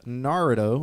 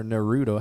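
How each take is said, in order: First: "Naruto" as NAR-uh-toh; first-syllable stress. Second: "Naruto" as nuh-ROO-toh; second-syllable stress. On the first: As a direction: stress the NAR in "Naruto", reduced middle vowel. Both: Shown as a demonstration. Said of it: "How do you say it?".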